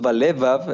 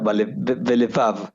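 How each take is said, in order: First: It has the Ashkenazi stress placement. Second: It has the Sephardic stress placement. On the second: "la sefaradit oriental, que sería balevav... tiene el acento en otra sílaba"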